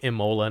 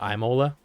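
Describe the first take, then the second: First: The first vowel sounds like 'ee'. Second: The first vowel sounds like 'eye'. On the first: The speaker calls it right. "if it's Italian, it's probably Imola" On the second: The speaker calls it wrong. "you don't say it like a hard I"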